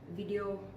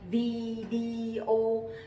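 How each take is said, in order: First: The word is said quickly and compressed. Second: The word is said slowly and drawn out. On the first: This is the current way of saying it. "we tend to speak it faster, like video" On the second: This is the older way of saying it. "we used to speak that slowly, like video"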